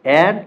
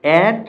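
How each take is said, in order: The two takes are said the same way.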